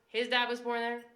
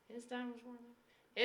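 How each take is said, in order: First: It is said at a normal, fuller volume. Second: It is said more quietly than before.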